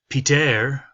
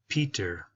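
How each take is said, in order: First: The final syllable is stressed and loud. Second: The final syllable is soft and drops off. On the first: The speaker calls it wrong. "instead of saying Peter" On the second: The speaker calls it right. "we're going to be really soft on how loud it is"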